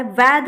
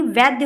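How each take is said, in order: First: वैध ending in a bare dh, no y; wrong pronunciation. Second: Said in the usual way. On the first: Shown as a demonstration. Teacher rejects a misspelling, mispronounced without y. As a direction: close वैध on dh without any glide. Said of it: "वैध नहीं". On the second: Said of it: "वैद्य होता है".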